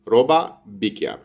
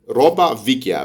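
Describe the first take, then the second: First: The second word begins with a b sound. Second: The second word begins with a v sound. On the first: "بتنطق روبا بيكيا عشان ده نطق الجنوب" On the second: "هي فيكيا"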